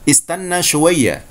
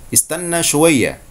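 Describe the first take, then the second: No difference in how they are said.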